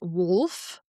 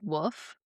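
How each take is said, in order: First: The L sound is clearly pronounced. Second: The L sound is weak or missing. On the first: The speaker calls it right. "and not wolf" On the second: The speaker calls it wrong. "I say like wolf"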